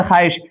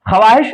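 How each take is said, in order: First: ख्वाहिश said khaahish, the w silent; ख्वाहिश pronounced xaaish with no w sound; read as spoken. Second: ख्वाहिश spelled out with the w sounded, khwaahish; ख्वाहिश read letter by letter, w included; spelled out as written. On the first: Teacher gives students the real reading, w dropped. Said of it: "पढ़ते हैं ख्वाहिश". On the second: Teacher shows students the written form, w sounded. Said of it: "ख्वाहिश लिखा हुआ है". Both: Shown as a demonstration.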